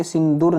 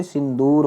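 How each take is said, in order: First: सिंदूर with short u; wrong form. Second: सिंदूर with long oo; correct form. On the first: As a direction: say सिंदूर as sin-dur. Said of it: "नहीं होता बच्चे". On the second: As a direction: say सिंदूर as sin-door. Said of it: "दूर नहीं, दूर". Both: Shown as a demonstration.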